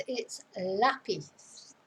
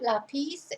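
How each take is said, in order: First: Lápiz slow, hit LÁ-piz; LÁ-piz said slowly; stress on first syllable. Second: Lápiz with wrong stress, rising at the end; mis-stress lápiz as a wrong example; lápiz stressed wrongly. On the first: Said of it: "The stress is on the first syllable". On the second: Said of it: "notice where the accent is". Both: Shown as a demonstration.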